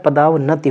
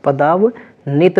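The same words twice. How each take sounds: First: पदावनति ending in "na-ti", final i sounded; correct ending -नति. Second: पदावनित ending in "nit", short i before the t; wrong form पदावनित with no final i; wrong ending -नित. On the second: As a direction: say पदावनित, broken after पदाव, closing on -नित. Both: Shown as a demonstration. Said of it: "पदावनित नहीं होता है, पदावनति होता है".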